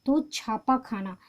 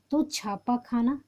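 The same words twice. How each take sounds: First: Said in the usual way. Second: "छापा खाना" said again, slower and spaced out; slow it down so the class can write it; slow repeat for dictation. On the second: Shown as a demonstration. Teacher repeating the answer slowly for students to copy.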